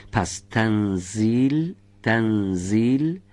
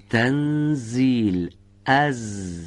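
First: تنزیل with a clear thin z, slow; تنزیل slowly, thin z like Persian but lighter; correct z sound. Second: تنزیل said with the tongue tip so the z sounds like dh, very slow; تنزیل with dh instead of z, drawn out; wrong z sound. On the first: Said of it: "باید به این شکل تلفظ بشه". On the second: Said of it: "انگار که نوک زبانی میفهمید و شبیه به ذال میشه". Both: Shown as a demonstration.

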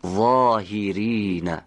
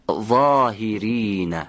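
First: ظاهرین repeated slowly with a heavy, buzzing ظ; careful recitation. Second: ظاهرین said slowly with a heavy, buzzing ظ; careful recitation. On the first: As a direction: say ظاهرین again, drawn out. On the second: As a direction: stretch ظاهرین out for the class. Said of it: "حالا دقت کنید به حرف ظا در این کلمات". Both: Shown as a demonstration.

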